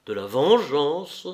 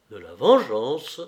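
First: Slow, louder, rising; bewildered question. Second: Slow, louder, rising in disbelief; stunned cry. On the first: Nero repeats the word in shock, bewildered rising question. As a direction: ask it again, still stunned. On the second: Nero turns sharply at the word vengeance, stunned cry. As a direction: exclaim it as a shocked question. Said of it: "s'écria Néron". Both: A narrator's reading.

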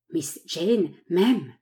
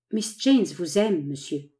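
First: Very slow, dazed echo of Miss Jane m'aime; Murray echoing the news in disbelief; stunned repetition. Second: Said in the usual way. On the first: A narrator's reading. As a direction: repeat it as if struck. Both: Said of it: "En répétant ces mots".

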